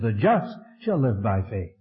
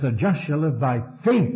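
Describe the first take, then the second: First: The stress falls on the word just. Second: The stress falls on the word faith. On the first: "he put the emphasis on the just" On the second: "he puts the emphasis on faith"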